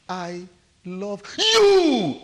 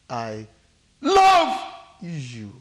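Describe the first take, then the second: First: The stress falls on the word you. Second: The stress falls on the word love. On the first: "The emphasis is on you" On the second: "The emphasis is where? Love. Love"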